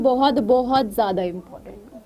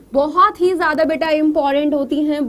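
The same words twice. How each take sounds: First: बहुत, बहुत ज्यादा important said slowly and lower, each बहुत leaned on; slow emphatic stress. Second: Said in the usual way. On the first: Shown as a demonstration. Teacher telling students headings matter, slow lower emphasis. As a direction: drag out बहुत, बहुत to drive it home. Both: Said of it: "याद रखना".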